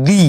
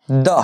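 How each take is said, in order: First: দি, rhyming with "see"; "the" as "dee". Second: দা, the first way, ending in an open vowel; "the" as "duh". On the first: Teacher shows learners the second pronunciation, দি as "dee". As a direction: say দি with a long "ee". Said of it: "আর একটা উচ্চারণ হচ্ছে". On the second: Teacher shows learners the first pronunciation, দা as "duh". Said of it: "বাংলাতে লিখলে হবে". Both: Shown as a demonstration.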